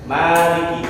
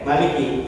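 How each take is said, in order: First: The first vowel is held long. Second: The first vowel is kept short. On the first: It means owner. "maknanya pan, panjang" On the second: It means king or ruler. "Ada yang dibacanya pendek"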